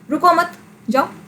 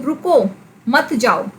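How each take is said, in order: First: The pause comes right after 'mat'. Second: The pause comes right after 'ruko'.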